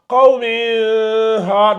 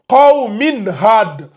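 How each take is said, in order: First: The n sound is hidden, not pronounced clearly. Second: The n sound is pronounced clearly before the h. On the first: The speaker calls it wrong. "On ne dit pas" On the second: The speaker calls it right. "on prononce clairement ici le Tanwin"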